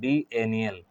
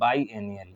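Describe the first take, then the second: First: The first syllable sounds like 'bee'. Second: The first syllable sounds like 'bye'. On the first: The speaker calls it wrong. "बी एनियल या फिर" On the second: The speaker calls it right. "इसको बाई एनियल कहेंगे तो ज़्यादा अच्छा रहेगा"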